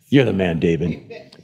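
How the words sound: It is said with a harsh, accusing growl. The speaker is condemning the listener. "I felt like there had to be a growl in it. Or just a little bit of like a bony finger"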